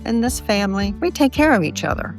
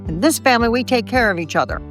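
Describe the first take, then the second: First: It is said in a calm, plain tone. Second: It is said in a sharp, demanding tone. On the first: It simply explains a shared value. The speaker calls it right. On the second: It sounds like a scolding demand. The speaker calls it wrong.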